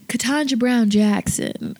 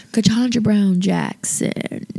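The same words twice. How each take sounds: First: Said in the usual way. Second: Slow, sultry and seductive. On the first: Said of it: "I try to do it all sexy". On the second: Shown as a demonstration. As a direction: purr the name slowly and sexy. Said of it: "I like my sultry voice".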